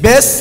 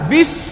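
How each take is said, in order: First: The vowel is an open 'eh' sound. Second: The vowel is a thin, close 'ee' sound. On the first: The speaker calls it wrong. "বেস না" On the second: The speaker calls it right. "না বিস"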